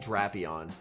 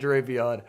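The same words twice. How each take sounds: First: The first syllable sounds like 'Drac' in Dracula. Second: The first syllable does not sound like 'Drac'. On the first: This is the official intended way. The speaker calls it right. "It's supposed to be a play on Dracula, so it's technically supposed to be Drapion" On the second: This is the speaker's casual preferred way. The speaker calls it wrong. "I like pronouncing it Drapion"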